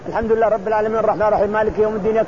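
The verses are rushed together very quickly. The speaker calls it wrong. "ما تسمى قراءة هذه"

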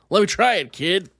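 It is said in a yelling voice.

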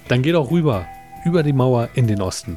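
There is a clear break after rüber. The first part is the title and the rest a subtitle. The speaker calls it right. "betone es nochmal, sag es nochmal richtig"

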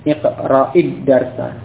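The first word runs straight into the second. "kalau bersambung maka dibaca dengan kasrah"

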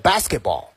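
It is said with an English accent. "英文呢是"

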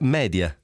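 It is said with a Latin-style pronunciation. It respects the word's Latin origin. The speaker calls it right. "si pronuncia media, viva Dio"

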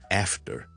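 It is said with an American English accent. "美式英文咧"

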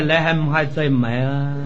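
It is said with Cantonese pronunciation. "广东人讲起来"

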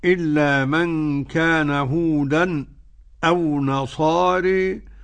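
There is a brief silent stop before the hamza. "بالسكت"

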